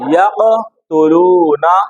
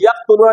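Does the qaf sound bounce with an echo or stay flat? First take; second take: bouncing; flat. First: The qaf bounces back with a slight echo. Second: The qaf is closed flat without an echo. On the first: The speaker calls it right. "क्या बोलेंगे?" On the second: The speaker calls it wrong. "इसको यक़तुलूना नहीं बोलेंगे"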